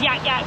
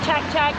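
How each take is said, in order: First: Each syllable begins with a 'y' sound. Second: Each syllable begins with a 'ch' sound. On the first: The speaker calls it wrong. "I would read it as yak yak" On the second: The speaker calls it right. "but it's actually chak chak"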